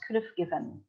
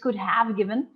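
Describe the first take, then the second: First: The h is dropped, leaving a short v sound. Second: The word have is said in full. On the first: "you don't pronounce the H A. You pronounce could have given" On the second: "it is could have given"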